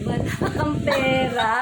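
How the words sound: It is said in a flirty tone.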